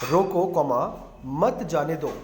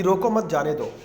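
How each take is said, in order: First: "रोको" set apart, comma named aloud, then "मत जाने दो"; comma after रोको. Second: "रोको मत जाने दो" run together as one phrase; no break after "रोको", straight on through "मत जाने दो"; no comma after रोको. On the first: Teacher showing students how a comma changes meaning, comma after "रोको". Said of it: "उसके बाद अर्धविराम लगा दूँ". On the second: Teacher reading the example sentence without comma, "रोको मत" unbroken. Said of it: "अर्धविराम नहीं लगाया रोको के बाद". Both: Shown as a demonstration.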